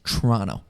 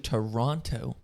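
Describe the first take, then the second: First: The name is said in a clipped local form. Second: The name is said with an American pronunciation. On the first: "if you really want to get in the nitty gritty" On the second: "I know I said that so American"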